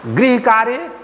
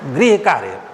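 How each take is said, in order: First: The first word is said with a 'ri' sound. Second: The first word is said with a 'ri' sound.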